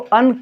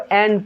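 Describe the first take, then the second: First: The word has a short, reduced vowel. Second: The word has a full, clear vowel. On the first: "weak form में करेंगे इसको अन पढ़ेंगे" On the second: "strong form में जब करेंगे इसको एन पढ़ेंगे"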